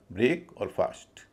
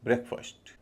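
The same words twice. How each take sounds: First: ब्रेक with long "ay", फास्ट with long "aa"; words said separately. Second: ब्रेकफास्ट as "brek-fust", both vowels short; merged, reduced vowels. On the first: Teacher saying the parts separately, ब्रेक and फास्ट in full vowels. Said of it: "अलग अलग इनका उच्चारण होगा". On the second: Teacher showing the joined word, ब्रेकफास्ट as short "brek-fust". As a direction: run ब्रेकफास्ट together with a weak second vowel. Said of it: "जब ये मिल जाते हैं". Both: Shown as a demonstration.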